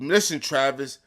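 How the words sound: The voice is deep and firm. The speaker means it. The speaker calls it right. "put some bass in your voice like you mean it. Like put a little get a little deeper"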